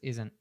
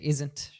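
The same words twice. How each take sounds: First: The final T is dropped. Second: The final T is pronounced. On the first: "She says isn't. ... we drop the T" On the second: "she doesn't say isn't"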